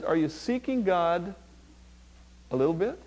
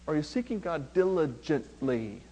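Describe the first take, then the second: First: "a little bit" lifted as a question; light questioning. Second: Lower, softer, spell out each beat of "diligently"; deliberate emphasis. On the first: Preacher asking the congregation about half-measures, light questioning. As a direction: ask it lightly, rising on "bit". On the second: Preacher challenging the congregation to seek God, deliberate emphasis. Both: Shown as a demonstration. Contrasts half-hearted and diligent seeking.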